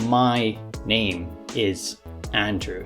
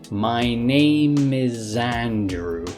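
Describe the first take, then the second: First: The words are said separately with breaks. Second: The words run smoothly together without breaks. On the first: The speaker calls it wrong. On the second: The speaker calls it right.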